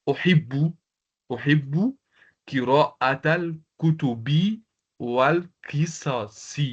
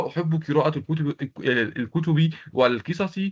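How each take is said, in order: First: Careful slow reading. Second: Fast run-through. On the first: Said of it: "donc je dis". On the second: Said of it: "c'est-à-dire". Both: Shown as a demonstration.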